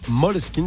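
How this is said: The name is said in the Danish way. This is how the fans say it should be said. The speaker calls it right. "c'est danois, ça se prononce Måneskin"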